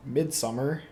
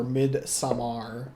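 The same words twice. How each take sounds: First: "Midsommar" said like English "midsummer"; "Midsommar" as everyday "mid-SUMMER"; English pronunciation. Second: "Midsommar" drawn out slowly, ending in "-ar"; "Midsommar" with a full, open "-mar" ending; alternative pronunciation. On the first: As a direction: say "Midsommar" with a plain "-er" ending. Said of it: "or however you wanna tell me". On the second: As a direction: say "Midsommar" as a slow "mid-sum-MAR". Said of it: "however you wanna tell me I'm saying it wrong". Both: Shown as a demonstration.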